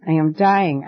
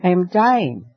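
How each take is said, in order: First: Fading frightened cry. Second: Frightened cry. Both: A narrator's reading. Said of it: "cried Nycteris".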